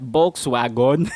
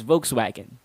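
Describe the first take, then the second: First: "Volkswagen" as BOLKS-wa-gon, B for V; Filipino mispronunciation. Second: "Volkswagen" as VOKES-wa-gen, clear V; correct pronunciation. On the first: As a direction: open "Volkswagen" with a B and end on a full "gon". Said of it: "gets mixed up with the B sound". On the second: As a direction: start "Volkswagen" with V and weaken the last vowel. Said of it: "You pronounce that as Volkswagen". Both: Shown as a demonstration.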